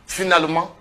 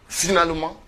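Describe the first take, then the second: No difference in how they are said.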